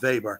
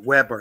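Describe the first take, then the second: First: The name is said with a German pronunciation. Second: The name is said with an English pronunciation. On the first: "I tend to adopt the Germanic pronunciation" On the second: "I think you tend to pronounce it"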